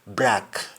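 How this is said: It is said with a Jamaican accent. The speaker calls it right. "To break is to break in Jamaican. ... you simply say break"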